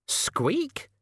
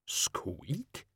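First: Shrill, very high excited squeak; a gleeful little rat squeak. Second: Tiny startled squeak, hushed; a soft shocked rat squeak. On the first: Rat cheers after sledge leaves. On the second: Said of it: "in sheer shock". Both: Acted.

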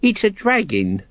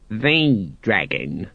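First: Said in the usual way. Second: "The" drawn out long as "thee"; correcting stress on THE. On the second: A narrator's reading. Senior guard corrects his junior, stressing "The". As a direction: slowly correct him, leaning on "The". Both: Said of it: "corrected his superior".

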